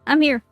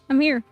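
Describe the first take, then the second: No difference in how they are said.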